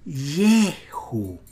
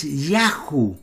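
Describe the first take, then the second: First: Yehu drawn out slowly with an E in the first syllable; soft, stretched Yehu showing the changed vowel; contrasted vowel. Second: Yahu with an open A in the first syllable; the rejected form Yahu, ya not ye; contrasted vowel. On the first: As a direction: say Yehu very slowly and softly, YE not ya. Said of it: "es Yehu". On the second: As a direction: say Yahu clearly with a YA sound. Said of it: "Y ahora no es Yahu". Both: Shown as a demonstration.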